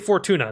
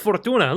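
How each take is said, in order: First: The name is said in a plain accent. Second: The name is said in a foreign accent. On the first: The speaker calls it wrong. "You cannot say Fortuna. That is not its name" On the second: The speaker calls it right. "you got to say it with the accent"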